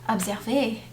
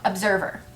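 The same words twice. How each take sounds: First: The word is said with a French accent. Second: The word is said with an English accent. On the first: The speaker calls it right. "My immediate thought is not observer" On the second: The speaker calls it wrong. "Pronounce it with a full English accent"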